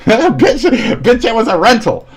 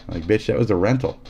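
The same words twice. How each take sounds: First: High, loud laughing outburst; mock outraged yell. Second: Said in the usual way. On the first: Mocking the friend over the snapped rental, high and loud. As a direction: shriek it at the friend who broke the disc. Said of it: "they're gonna take your disc and go". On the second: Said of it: "take your disc and go".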